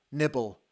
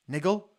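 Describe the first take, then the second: First: "Nibble" said firmly with a falling tune, the b's clear; correcting the word. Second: "Niggle" said with a rising, doubtful tune; questioning the word. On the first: Fan correcting himself to "Nibble", firm. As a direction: settle on "Nibble" as the fix. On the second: Fan doubting his own word choice, asking "Niggle?". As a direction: query "Niggle" as if unsure it's the right word. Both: Real, not acted.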